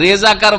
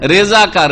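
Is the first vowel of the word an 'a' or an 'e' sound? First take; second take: e; e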